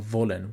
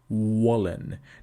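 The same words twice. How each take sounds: First: It starts with V, teeth touching lower lip. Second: It starts with W, lips pushed forward. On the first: The speaker calls it right. "the pronunciation of W is labiodental. It is V" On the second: The speaker calls it wrong. "you protrude your lips and you say"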